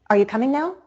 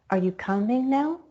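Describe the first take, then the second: First: Brisk question stepping up from "coming" to a high "now"; stepping rise. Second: Drawn-out climb from "coming" up through "now"; slower stepping rise. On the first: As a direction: step quickly higher through "coming now". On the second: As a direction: stretch "coming now", rising gradually to the end. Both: Shown as a demonstration. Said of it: "to step up even higher in pitch".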